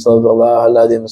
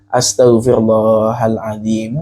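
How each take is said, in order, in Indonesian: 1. Frasa itu diucapkan cepat dan tergesa-gesa. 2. Frasa itu diucapkan pelan dan penuh perhatian. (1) "baca istighfarnya cepat-cepat" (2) "saya anjurkan istighfarnya pelan-pelan"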